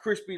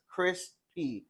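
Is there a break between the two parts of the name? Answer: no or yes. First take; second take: no; yes. First: It is said as one word without a break. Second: It is said with a break before P. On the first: It sounds like the snack word. The speaker calls it wrong. "It's not crispy like the chip" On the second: It sounds like a first name plus an initial. The speaker calls it right. "I was pronouncing it with a space"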